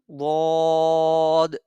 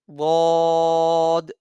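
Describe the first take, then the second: First: The consonant sounds between a Z and D. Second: The consonant sounds between a Z and D.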